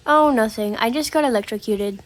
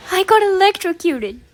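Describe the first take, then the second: First: Casual. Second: High-pitched, dramatic outcry; dramatic exclamation. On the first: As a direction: toss it off like small talk about the weather. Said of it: "he said it so casually". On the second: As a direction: blurt out the shock punchline high. Dramatic punchline of shock story. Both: Retold or imitated.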